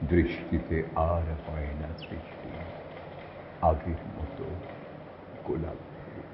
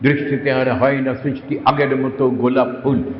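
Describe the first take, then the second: First: The line is recited at a softer volume. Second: The line is recited at a louder volume.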